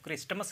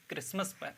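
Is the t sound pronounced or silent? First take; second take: pronounced; silent. First: The t sound is pronounced in the middle. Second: The t sound is left out entirely. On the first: The speaker calls it wrong. "क्रिस्टमस नहीं कहते हैं" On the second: The speaker calls it right. "क्रिसमस पढ़ते हैं इसको"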